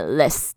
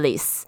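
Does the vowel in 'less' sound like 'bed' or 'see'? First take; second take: bed; see. First: The vowel sounds like the one in 'bed'. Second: The vowel sounds like the one in 'see'. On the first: The speaker calls it right. "less 这个发音应该是要念less" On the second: The speaker calls it wrong. "我之前我自己会念错，我会念成less"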